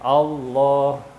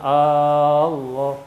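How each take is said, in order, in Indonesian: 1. Vokal pembukanya pendek. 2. Vokal pembukanya panjang.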